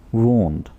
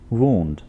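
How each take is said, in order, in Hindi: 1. यह स्वर 'moon' में 'oo' जैसा सुनाई देता है। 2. यह स्वर 'moon' में 'oo' जैसा सुनाई देता है।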